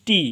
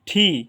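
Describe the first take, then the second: First: The first consonant has no puff of air. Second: The first consonant has a puff of air. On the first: The speaker calls it wrong. "এটা আমরা এতদিন বলেছি টি" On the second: The speaker calls it right. "But এটার উচ্চারণ হবে ঠি"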